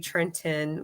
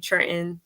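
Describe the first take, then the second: First: Trenton is said in the standard, non-local way. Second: Trenton is said the local Trenton way.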